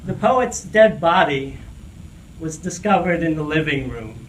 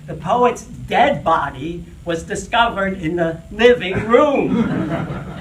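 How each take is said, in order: First: It is said plainly, without special emphasis. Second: It is said with strong, deliberate emphasis.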